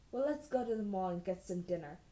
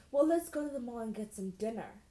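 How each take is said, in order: First: Said in the usual way. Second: "Well, let's go to the mall and get some dinner" offered as a tentative question. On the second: A narrator's reading. Boy suggesting dinner at the mall, "dinner" as a question. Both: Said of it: "more like a question than a statement".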